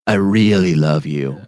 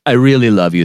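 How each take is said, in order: First: Slow, drawn-out 'I really love you'; songwriter's revised take. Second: Said in the usual way. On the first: Acted. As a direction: stretch out REALLY like a songwriter trying a line. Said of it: "It should be like". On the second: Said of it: "Two dudes sitting down writing".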